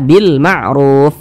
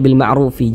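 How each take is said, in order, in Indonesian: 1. Frasa ini berakhir pada bunyi f mati. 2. Huruf f terakhir diikuti vokal pendek. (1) "Tapi dibaca bil ma'ruf" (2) "Jangan dibaca bil ma'rufi, jangan"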